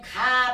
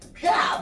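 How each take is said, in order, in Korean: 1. 평범한 한국어 음절이고 높낮이가 평평해요. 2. 중국어 같은 음절이고 높낮이가 움직여요. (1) "우리는 가 발음하지만" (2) "중국은 ... 높낮이도 있잖아요 ... 그아 뭐 이렇게 발음해"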